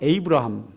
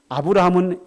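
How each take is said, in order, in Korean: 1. 이 이름은 'ay' 모음으로 시작합니다. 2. 이 이름은 'ah' 모음으로 시작합니다. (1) "영어로 읽게 되면 ... 이렇게 발음이 달라집니다" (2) "원래 발음"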